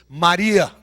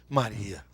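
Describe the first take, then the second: First: The name is said like a commanding proclamation. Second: The name is said tenderly and lovingly. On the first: An authoritative royal declaration. "uma declaração do Rei dos Reis?" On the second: A gentle, affectionate call. "Será que foi um Maria amoroso?"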